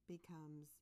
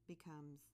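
The two takes are said the same way.

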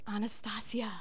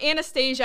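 First: The name has the Russian pronunciation. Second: The name has the common English pronunciation. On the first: The speaker calls it right. "no, it's Anastasia. The Russian" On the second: The speaker calls it wrong. "I know that's how everybody pronounces it"

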